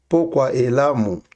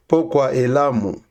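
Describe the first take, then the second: No difference in how they are said.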